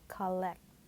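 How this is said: The first vowel is an open 'ah' sound. The speaker calls it right. "in English, we say ah"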